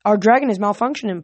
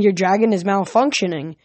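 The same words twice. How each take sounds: First: Quicker, emphatic confirmation; brisk echo, punching "dragon"; quick addition. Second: Put-on lightly French-accented objection; slight French accent, officious. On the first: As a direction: chime in fast to back up the excuse. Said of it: "Piper added". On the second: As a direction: point out the fault with a hint of French. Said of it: "he had a French accent". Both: A narrator's reading.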